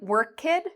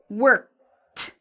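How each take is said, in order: First: The ending is said as an extra syllable. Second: The ending is a t sound in one syllable. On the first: The speaker calls it wrong. "instead of saying work kid" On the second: The speaker calls it right. "it's one syllable, one clear line"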